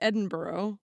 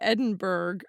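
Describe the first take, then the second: First: The name is not read out as it is spelled. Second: The name is read out just as it is spelled. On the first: The speaker calls it right. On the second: The speaker calls it wrong.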